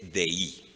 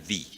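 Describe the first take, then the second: First: The vowel glides from e to i. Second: The vowel is a single plain i. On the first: The speaker calls it wrong. "como sigue la pronunciación de Erasmo" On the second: The speaker calls it right. "Pero es diptongo y suena di"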